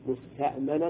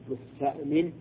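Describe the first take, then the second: First: The mim is said with an 'a' vowel. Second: The mim is said with an 'i' vowel. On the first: The speaker calls it wrong. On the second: The speaker calls it right.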